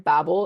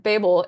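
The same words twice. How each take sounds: First: Babel said BAB-ul, short first vowel; American pronunciation. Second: Babel said BAY-bul, long first vowel; British pronunciation. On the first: Guest explaining to host, Babel as American BAB-ul. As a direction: say Babel to rhyme with babble. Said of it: "is the American one". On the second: Guest explaining to host, Babel as British BAY-bul. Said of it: "is the British pronunciation". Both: Shown as a demonstration.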